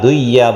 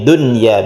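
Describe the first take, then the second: First: The n merges into the following y sound. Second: The n is pronounced clearly before the y. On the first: The speaker calls it wrong. "Duya bukan" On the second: The speaker calls it right. "tapi dunya biasa ya"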